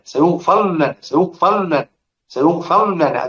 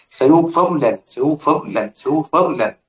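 First: سيغفر لنا with the راء fully merged into the لام, no vowel trace; full merging demo. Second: سيغفر لنا with a brief snatched vowel on the راء before لنا; vowel snatching demo. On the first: Teacher to students, showing full idgham on سيغفر لنا. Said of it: "ده الإدغام". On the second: Teacher to students, showing ikhtilas on سيغفر لنا. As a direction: demonstrate سيغفر لنا keeping a fraction of the راء's vowel. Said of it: "الاختلاس اللي هو ال-، الراو". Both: Shown as a demonstration.

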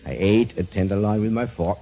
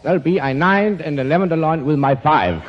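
First: Said in the usual way. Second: "nined" for ate and "five" for fork, each number word bumped up by one; inflated numbers. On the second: Shown as a demonstration. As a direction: say "I nined an tenderloin with my five" with every number-sound inflated, slightly louder. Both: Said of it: "so you can hear how this sounds".

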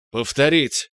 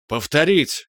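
First: Said in the usual way. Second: Croaked. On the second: A narrator's reading. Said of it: "каркнул Иваненко".

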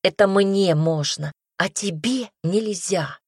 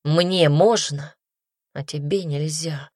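First: Mock-angry hissed retort, stress on Это; furious hiss. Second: Slow, sorrowful admission; he sadly concedes the double standard, lightly voiced. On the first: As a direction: throw his words back at him in fury. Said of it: "прошипела я разъярённо". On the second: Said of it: "печально произнёс Адам". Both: A narrator's reading.

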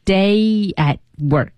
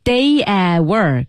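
First: Slow "Day at work", silent t leaving a gap; correct stop. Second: "Day at work" run through with no gap after "at"; wrong, no stop. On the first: Co-host practising the right way, gap after "at". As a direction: hold "at" shut before releasing "work". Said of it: "空缺儿不能省掉". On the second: Co-host showing the mistake, "at" with its stop missing. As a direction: lose the t's pause, sliding "at" straight into "work". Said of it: "你不能读成". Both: Shown as a demonstration.

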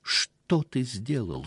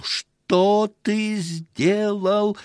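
First: Said in the usual way. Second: High, loud, drawn-out scream of Что ты сделал; shrieking. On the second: A narrator's reading. Wife screams at the husband in horror, high and long. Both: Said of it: "кричала Лава".

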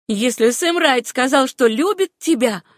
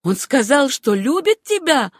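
First: Pointed, measured spite; raised-pitch controlled venom; cold, calculated malice. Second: High, loud, incredulous question; jealous disbelief, pitched up; piercing with hatred. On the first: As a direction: needle the rival coldly. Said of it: "начала Руфь с холодной, рассчитанной злобой". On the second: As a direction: demand it with a climbing, hateful voice. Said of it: "голос её стал пронзительным под действием". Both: A narrator's reading.

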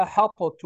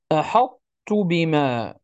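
First: أحطت with the ta fully swallowed; wrong reading. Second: أحطت with the emphatic ta kept before the ta, slowly; partial assimilation. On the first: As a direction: drop the ta of أحطت completely. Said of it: "لا نقرأها". (أحطت بإدغام كامل خاطئ) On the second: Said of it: "وإنما نقول". (أحطت بإدغام ناقص مع بقاء الاستعلاء) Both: Shown as a demonstration.

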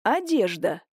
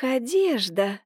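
First: Dry, mocking одежда; sarcastic echo of одежда; snide. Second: Одежда stretched out with a rising tune; stalling for time, drawling одежда; flustered rising drawl on одежда; drawn out, flustered. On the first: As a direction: throw the word back at her. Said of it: "ехидно посмотрел на неё Никитич". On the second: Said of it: "растерянно протянула Семёновна". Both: A narrator's reading.

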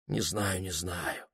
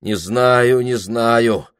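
First: Very soft, hushed mumble; a soft, hesitant murmur; quiet. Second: Loud, firmer repeat; a firm, louder insistence. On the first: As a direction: say it almost under your breath. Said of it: "тихо сказал он". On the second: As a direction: raise your voice on it. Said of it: "сказал он громче". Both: Acted.

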